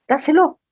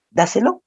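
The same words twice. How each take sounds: First: Higher, insistent repeat of "Dáselo"; emphatic repeat. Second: Said in the usual way. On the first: Retold or imitated. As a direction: press the second "Dáselo" up high. Pastor repeats advice with emphasis.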